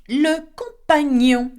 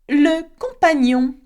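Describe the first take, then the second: The two takes are said the same way.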